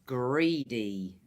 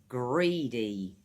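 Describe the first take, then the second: The two takes are said the same way.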